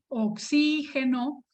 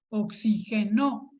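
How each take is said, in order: First: The stress is on the second syllable. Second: The stress is on the last syllable. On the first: It names the gas, a noun. "Es una palabra esdrújula" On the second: It is a past-tense verb form. "es una palabra aguda"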